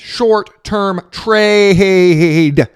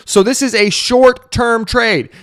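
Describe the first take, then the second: First: "Short-term trade" dragged out very slowly and loud. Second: Slow emphatic "short-term trade", every word hit; emphatic stress. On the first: Hammering the point home to viewers, very slow and loud. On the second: To viewers who don't get it, slow emphatic stress. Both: Shown as a demonstration. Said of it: "Do I have to make my face bigger so you guys understand?".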